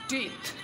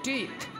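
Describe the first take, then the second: The two takes are said the same way.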